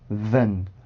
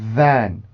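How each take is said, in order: First: The vowel is a short weak schwa sound. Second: The vowel is a full open 'e' sound. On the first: The word is an unimportant function word in a sentence. "슈아 발음으로 바뀌어 있을 때는" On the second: The word is read on its own. "원래 정확한 발음 기호는 에 발음입니다"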